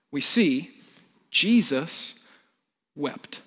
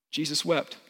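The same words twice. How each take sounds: First: Dramatic pauses. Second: Said in the usual way. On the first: Shown as a demonstration. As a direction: hold a beat before each word.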